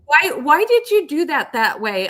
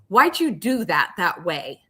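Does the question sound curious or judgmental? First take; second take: curious; judgmental. First: The question sounds open and curious. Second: The question sounds critical and judgmental. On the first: The asker genuinely wants to understand. The speaker calls it right. "I'm really curious" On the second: The asker is blaming the listener. The speaker calls it wrong. "One is judgmental"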